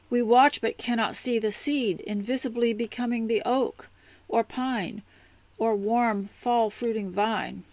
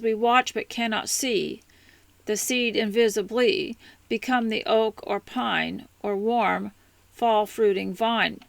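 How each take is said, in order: First: It flows as one sentence without pauses. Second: It is broken up with pauses at line ends.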